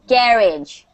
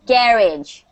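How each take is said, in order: First: It is said with a British pronunciation. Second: The same.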